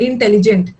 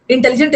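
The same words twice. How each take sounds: First: Halting, in syllables. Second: Said in the usual way. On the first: Shown as a demonstration. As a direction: break intelligent after the first syllable, in-telligent. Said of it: "रुक रुक के बोल रहे हो". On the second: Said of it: "एक ही बार में नहीं बोल रहा".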